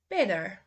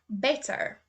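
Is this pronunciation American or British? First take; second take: American; British. First: It is said in an American accent. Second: It is said in a British accent. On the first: "then I will say the U S" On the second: "first say the U K pronunciation"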